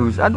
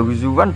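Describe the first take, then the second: First: A glottal stop is kept in the middle. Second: A w sound replaces the glottal stop mid-word. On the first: The hamzah is kept as in the root. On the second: The hamzah is softened for ease.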